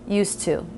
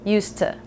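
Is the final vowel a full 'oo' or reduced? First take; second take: full; reduced. First: The final vowel is a full oo sound. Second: The final vowel is reduced, not a full oo.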